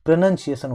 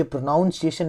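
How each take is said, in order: First: प्रोनंसिएशन said with "nun", pro-NUN-see-ay-shun, no "ou"; correct pronunciation. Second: प्रोनाउंसिएशन said with the "nounce" sound, pro-NOUN-si-ay-shun; wrong pronunciation. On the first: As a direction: say प्रोनंसिएशन cleanly with a short "nun" sound, falling at the end. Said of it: "प्रोनंसिएशन होता है". (प्रोनंसिएशन को "नन" के साथ सही उच्चारण में बोलें) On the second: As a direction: say प्रोनाउंसिएशन with "ou" like in pronounce, as the common mistake. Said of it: "ये प्रोनाउंसिएशन नहीं होता". (प्रोनाउंसिएशन को "नाउं" के साथ गलत उच्चारण में बोलें)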